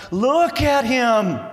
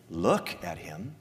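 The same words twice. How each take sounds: First: Preacher as a boastful Father, high, loud and slow; proud proclamation. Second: "Look at him." low, soft and slow; preacher showing what the Father does not say, quiet and slow; quiet contrast. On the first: Pretend. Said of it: "If I were the Father". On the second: Shown as a demonstration. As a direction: say it softly, taking the boast back. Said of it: "The Father doesn't say".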